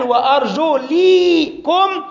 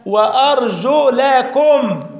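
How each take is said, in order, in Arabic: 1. الحركة بعد اللام هي 'i'. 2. الحركة بعد اللام هي 'a'. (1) "اللي قالوا على قراءة الكسر" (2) "على قراءة الفتح"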